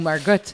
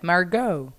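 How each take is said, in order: First: The name ends with a T sound. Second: The name ends without a T sound.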